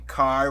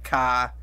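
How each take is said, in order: First: The final R sound is clearly pronounced. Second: The final R sound is dropped. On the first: "instead of saying car with a R" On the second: "it's like car"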